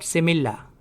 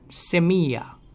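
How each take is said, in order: First: The double L is sounded like an L. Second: The double L is sounded like a Y. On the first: The speaker calls it wrong. "not semilla" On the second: The speaker calls it right. "Double L in Spanish is pronounced as ya"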